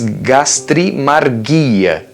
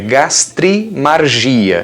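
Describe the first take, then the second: First: It is pronounced the Greek way. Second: It is pronounced the Portuguese way.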